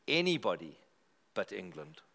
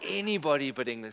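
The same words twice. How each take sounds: First: "Anybody" then a pause, "but England" dropped low and soft; deadpan build before "but England"; slow emphatic. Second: "Anybody but England" rattled off fast in one breath; fast chant of "Anybody but England" to the room; quick punchline. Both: Shown as a demonstration.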